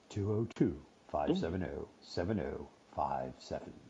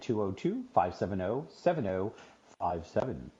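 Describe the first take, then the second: First: It is read in a put-on radio-announcer voice. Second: It is read in an ordinary speaking voice.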